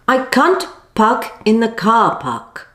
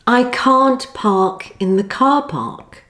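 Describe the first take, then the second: First: The vowel in park is clipped short. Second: The vowel in park is held long. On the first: The speaker calls it wrong. "it's very common for some of you students to shorten the sound too much, like this" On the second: The speaker calls it right. "of course it should be"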